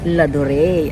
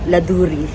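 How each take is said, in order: First: The name is said the French way. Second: The name is read the Filipino way, as spelled. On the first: This is the actual name. The speaker calls it right. "ito pala ay ladure" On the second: This is how locals would naively read it. The speaker calls it wrong. "Sa ating mga taga Pilipinas, pag binasa natin to ay laduri"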